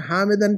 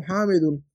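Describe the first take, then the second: First: हामिदन with the wrong -an ending, questioning. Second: हामिदुन with a clear -un ending and a firm fall; correct ending. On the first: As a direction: repeat the error हामिदन to show it. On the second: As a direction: settle it with the right form हामिदुन. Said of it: "हामिदन क्यों?". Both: Shown as a demonstration.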